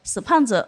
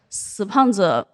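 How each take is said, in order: First: It is said in a light, mocking tone. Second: It is said in a heavy, somber tone.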